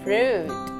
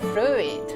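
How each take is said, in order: First: The vowel is a single long oo sound. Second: The u and i are sounded separately. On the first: The speaker calls it right. "Fruit, bukan fruit" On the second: The speaker calls it wrong. "bukan fruit"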